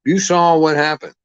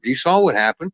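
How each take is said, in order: First: Higher and louder, hitting saw; louder emphatic repeat. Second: Said in the usual way. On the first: Real, not acted. Ranting to listeners, insists louder and higher. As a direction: drive the point home the second time.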